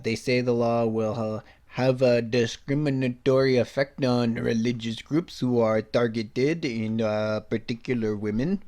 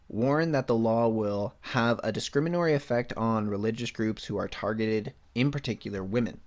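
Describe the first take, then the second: First: It is said in a French accent. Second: It is said in his plain accent.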